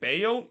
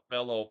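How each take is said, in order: First: The name is said the Spanish way. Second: The name is said the English way. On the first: "they pronounce it Bayo ... is that the Spanish pronunciation of bello?" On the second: "I know the English pronunciation is be- bello"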